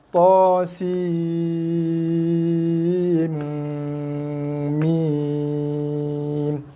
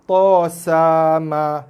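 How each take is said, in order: First: The letters are read as long, drawn-out names. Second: Each letter is read as a short syllable. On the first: The speaker calls it right. "dibaca dengan nama huruf sebab ada misai" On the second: The speaker calls it wrong. "ada yang baca to sama. Ha, salah ha"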